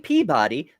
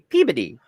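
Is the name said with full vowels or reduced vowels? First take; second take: full; reduced. First: The name is said with its full vowels. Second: The name is said with reduced, mostly consonant sounds. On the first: The speaker is an outsider to the place. The speaker calls it wrong. "if you say Peabody, they will look at you funny" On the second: It is how the locals say it. The speaker calls it right. "You have to say Peabody"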